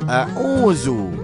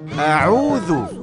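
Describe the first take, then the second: First: It begins with a plain glottal stop. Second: It begins with a tight pharyngeal ain sound. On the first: The speaker calls it wrong. "bukan hamzah" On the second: The speaker calls it right. "Sebut a'udzu dengan huruf ain"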